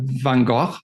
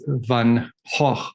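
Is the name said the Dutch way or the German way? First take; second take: German; Dutch. First: It is said with a hard G sound. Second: It is said without a hard G sound. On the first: The speaker calls it wrong. "In German, you would say Van, Van Gogh. But you're still pronouncing the G" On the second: The speaker calls it right. "So in Dutch, you don't pronounce the G"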